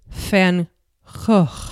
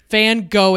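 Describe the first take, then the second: First: The name is pronounced the Dutch way. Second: The name is pronounced the American English way. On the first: The speaker calls it right. "if I was to pronounce it correctly, in Dutch it would be" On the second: The speaker calls it wrong. "I will not be pronouncing his last name correctly"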